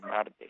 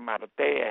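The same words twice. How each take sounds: First: Marte stressed on the first syllable, "MAR-te"; correct surname pronunciation. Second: Marte stressed on the end, "mar-TÉ"; American mispronunciation. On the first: Commentator giving the real surname, Marte with stress on the first syllable. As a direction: say Marte the Spanish way, stress up front. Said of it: "el apellido es Marte". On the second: Commentator quoting the Americans' version, Marte stressed on the final e. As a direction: say Marte with the stress moved to its last syllable. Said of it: "Igual que le dicen". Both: Shown as a demonstration.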